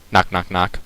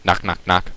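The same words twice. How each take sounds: The two takes are said the same way.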